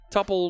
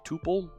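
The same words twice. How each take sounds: First: The first vowel sounds like the vowel in 'double'. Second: The first vowel sounds like the vowel in 'too'. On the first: This is how the speaker says it. "tuple looks like double, so I use the same U to pronounce it" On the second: Some other people say it this way. "you'll hear some folks refer to it as a tuple"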